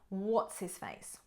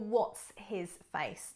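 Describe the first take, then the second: First: The phrase is said quickly and run together. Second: The phrase is said slowly and carefully.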